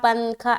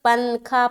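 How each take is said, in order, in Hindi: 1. न को जीभ से पूरा बोला जाता है। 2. न को जीभ से पूरा बोला जाता है।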